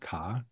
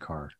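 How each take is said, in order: First: The final r sound is dropped. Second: The final r sound is pronounced. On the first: This is the local Boston way of saying it. "all my friends said ka instead of car" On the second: This is the speaker's own way of saying it. "I always had my R's"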